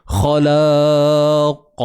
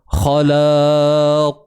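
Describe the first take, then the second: Both takes have the same delivery.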